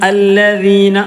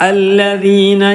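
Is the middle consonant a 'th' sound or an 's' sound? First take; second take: th; th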